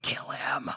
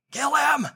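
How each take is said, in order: First: Breathy whispered urging. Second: Urgent plea. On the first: Men urging David to strike, whispered. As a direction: hiss it to the leader in the dark. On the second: Men pushing David to kill Saul, urgent. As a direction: press him harder. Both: Retold or imitated. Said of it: "David's men whisper".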